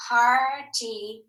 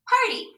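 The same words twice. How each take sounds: First: Said in the usual way. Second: Party. said again much higher, falling; high echo of party; echoed word. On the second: Shown as a demonstration. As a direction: sing party. back up high then drop.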